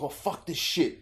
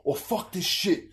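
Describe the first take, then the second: First: Lightly voiced Cockney lad swearing; a hint of a Cockney bloke cursing; mock Cockney swear. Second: Higher, slowed Cockney curse through laughter; mock Cockney swear, laughing. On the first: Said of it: "he's like". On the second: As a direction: ham up the Cockney game character swearing. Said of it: "he goes".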